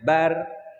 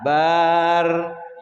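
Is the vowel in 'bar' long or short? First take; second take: short; long. First: The vowel after b is kept short. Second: The vowel after b is drawn out long. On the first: The speaker calls it right. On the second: The speaker calls it wrong.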